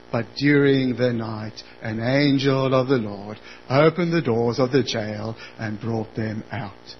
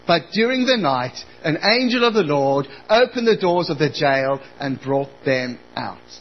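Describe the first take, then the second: First: It is read in a flat monotone. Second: It is read with normal expression.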